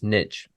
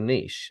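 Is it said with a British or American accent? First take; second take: American; British. First: It is said with an American accent. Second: It is said with a British accent.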